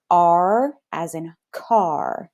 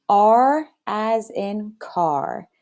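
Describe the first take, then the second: First: R as in car said slowly, R drawn out; slow teaching model. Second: R as in car again slowly with class; slow choral model, stretched; slow repeat. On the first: Teacher modeling R as in car slowly for kids. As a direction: stretch each word for the class. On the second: Kids repeating R as in car slowly after teacher. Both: Shown as a demonstration. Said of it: "Say this with me".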